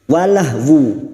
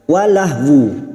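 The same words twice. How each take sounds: First: The word ends with an audible 'wu' sound. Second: The same.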